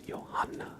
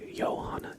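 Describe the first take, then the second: First: The stress is on the second syllable. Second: The stress is not on the second syllable. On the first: The speaker calls it right. "with like the the emphasis on the second syllable in Johanna" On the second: The speaker calls it wrong. "Instead of Johanna"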